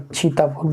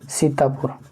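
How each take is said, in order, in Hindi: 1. शब्द की शुरुआत ch ध्वनि से होती है। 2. शब्द की शुरुआत s ध्वनि से होती है। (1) "सीतापुर को चीतापुर बोलते हैं" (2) "स को छ बोलेंगे"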